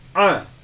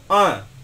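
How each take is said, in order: Both takes have the same delivery.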